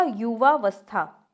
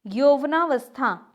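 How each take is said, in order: First: युवावस्था slowly, with "yuvaa"; correct form. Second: यौवनावस्था slowly, with "yauvanaa"; incorrect form. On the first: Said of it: "तो क्या होगा?". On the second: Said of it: "यौवनावस्था नहीं होता है". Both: Shown as a demonstration.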